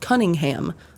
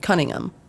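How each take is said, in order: First: It is said with an American pronunciation. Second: It is said with a British pronunciation. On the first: "a road over in Speedway called Cunningham" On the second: "I say it Cunningham because that's how all my British coworkers say it"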